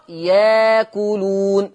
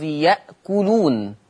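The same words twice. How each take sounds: First: Slow ياكلون as "yaa-kuloon", no glottal stop; hamza turned to alif. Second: يأكلون with a glottal stop, "ya'-kuloon"; hamza kept. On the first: Teacher shows Warsh's substitution, long "yaa" in ياكلون. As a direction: glide through a long aa in ياكلون. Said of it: "فتقرأ ياكلون". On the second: Teacher names the word before changing it, "ya'kuloon" for يأكلون. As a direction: catch the throat after the ya of يأكلون. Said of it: "بإبدال الهمز في لفظ يأكلون". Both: Shown as a demonstration.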